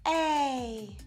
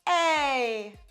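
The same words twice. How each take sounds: First: The vowel starts with an audible breath of air. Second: The vowel starts cleanly, neither breathy nor sharp. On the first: "more on the breathy and the aspirated side" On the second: "that coordinated simultaneous"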